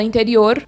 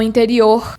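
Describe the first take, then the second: First: "interior" without the countryside curled R; non-caipira Brazilian "interior"; other Brazilian accent. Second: "interior" with a breathy h-like final R; other Brazilian R accent. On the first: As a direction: say "interior" with a light R, Brazilian but not caipira. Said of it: "Já o restante do Brasil". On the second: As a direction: end "interior" on a guttural Brazilian R. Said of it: "ou se não". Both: Shown as a demonstration.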